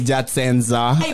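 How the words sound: The word is said with altered consonants. The speaker calls it wrong. "you guys would say Jatsenza"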